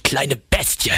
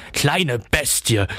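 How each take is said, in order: First: "Kleine" lifted, the phrase rising in a light mocking bleat; bleating sneer. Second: "kleine" stressed, slow, falling to a close; drawn-out snarl, only a hint of a goat bleat; bleating sneer. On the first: Coppelius grabs the boy, mocking with a rising bleat. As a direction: sneer it up like a goat, lightly voiced. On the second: Coppelius grabs the boy, slow falling mocking bleat. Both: A narrator's reading. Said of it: "meckerte er, zähnefletschend".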